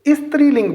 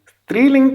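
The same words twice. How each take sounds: First: An extra 'i' vowel comes before the 's'. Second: The word begins directly with the 's' sound. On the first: The speaker calls it wrong. "छोटी ई से शुरू करते हुए वो इसे स्त्रीलिंग बोलते हैं, जो कि गलत है" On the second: The speaker calls it right. "स्त्रीलिंग कहने की बजाय"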